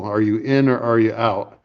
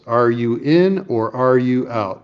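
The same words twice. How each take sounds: First: Said in the usual way. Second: Drawn-out blunt ultimatum, stress on "in" and "out"; slow and pointed. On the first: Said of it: "What about my proposal?". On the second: Retold or imitated. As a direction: spell out "Are you in or are you out?" slowly, word by word. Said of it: "one syllable words".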